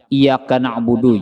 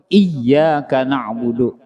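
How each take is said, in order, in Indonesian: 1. Dibaca cepat dan huruf y pendek. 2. Huruf y ditahan panjang dan dobel. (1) "Hendak baca cepat-cepat" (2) "Padahal ianya tuh dua buting tuh"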